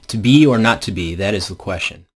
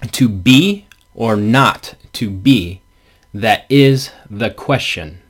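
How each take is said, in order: First: Stress falls naturally, as in normal speech. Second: Every second syllable gets strong, regular stress. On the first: "that's not how we actually read it. We read it" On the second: "this is how the meter is stressed"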